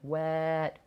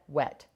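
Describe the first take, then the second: First: The word is said slowly with sounds stretched. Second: The word is said quickly at normal speed.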